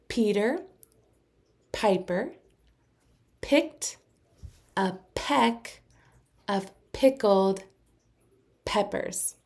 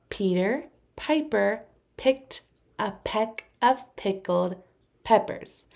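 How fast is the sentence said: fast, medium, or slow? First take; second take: slow; medium. First: It is said slowly, word by word. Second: It is said at a moderately quick pace.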